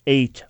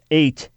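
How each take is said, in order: Both takes have the same delivery.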